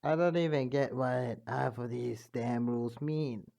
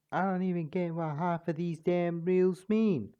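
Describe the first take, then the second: First: A retry in a changed timbre at normal pitch; King Dedede voice. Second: A higher, louder attempt at the gruff king; failed King Dedede voice. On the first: Acted. A narrator retrying King Dedede's voice, changed timbre. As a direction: settle into the king's voice. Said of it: "remember how to do their voice". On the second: A narrator missing King Dedede's voice, a bit higher. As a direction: push it up and a bit louder, not quite landing. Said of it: "That's not his voice".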